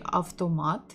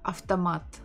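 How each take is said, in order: First: Each letter is pronounced fully, with a clear V. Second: The V becomes F and unstressed syllables are reduced. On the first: This is how northern Russian speakers say it. "people usually pronounce each letter as it is" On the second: This is how speakers around Moscow and the south say it. "Instead of V, you say F"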